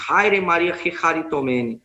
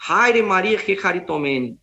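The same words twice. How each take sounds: First: Haire Maria kecharitomene langsam, griechisch betont, kecharitomene mit rauem ch; Greek greeting. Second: Haire Maria que caritomene langsam und feierlich, griechisch ausgesprochen; Greek greeting. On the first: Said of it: "a palavra grega kecharitomene". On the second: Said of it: "aqui o anjo a saudou". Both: Shown as a demonstration.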